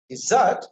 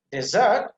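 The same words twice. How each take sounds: First: "desert" with a short first vowel, weight on "-sert"; stress on second syllable. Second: "desert" slowly, with a fuller "de" at the start; stress on first syllable. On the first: Teacher contrasting verb with noun, second syllable stressed. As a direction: punch the end of "desert", slowly. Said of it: "with the stress on the second syllable". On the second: Teacher contrasting noun with verb, first syllable stressed. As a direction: give the "de" of "desert" its own weight. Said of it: "emphasis on the first syllable". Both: Shown as a demonstration.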